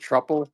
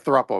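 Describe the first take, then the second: First: The word begins with a plain 'tr' sound. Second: The word begins with a 'thr' sound. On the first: The speaker calls it wrong. "how do you pronounce it? Truple?" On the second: The speaker calls it right. "thruple, yeah, thruple, my bad"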